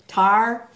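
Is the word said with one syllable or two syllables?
one syllable. The word is squeezed into one syllable. This is how a Texan speaker says it. "My husband is like so Texan. He says tar"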